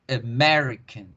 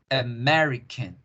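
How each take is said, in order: No difference in how they are said.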